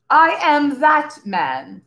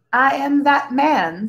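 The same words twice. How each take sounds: First: Slow, proud declaration, chest puffed out; slow swelling pride; proudly. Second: Modestly. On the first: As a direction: savour each word like a boast. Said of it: "swelling with pride". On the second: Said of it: "said Tense modestly". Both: A narrator's reading.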